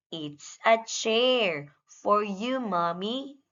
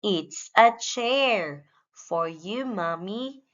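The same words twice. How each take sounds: The two takes are said the same way.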